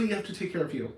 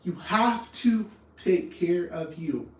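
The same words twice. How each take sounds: First: Said in the usual way. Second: Each word of "You have to take care of you" drawn out slowly, pressed home; slow it right down and lean on every word of "You have to take care of you"; slow emphatic repeat. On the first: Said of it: "I will die on this hill". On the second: Shown as a demonstration. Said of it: "I will die on this hill, I swear".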